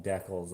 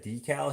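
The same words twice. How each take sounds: First: "decals" as "DECK-ulls"; short-e pronunciation. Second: "decal" as "DEE-cal"; long-e pronunciation. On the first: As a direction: say "decals" to rhyme with freckles. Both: Shown as a demonstration. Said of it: "most people here call 'em decals".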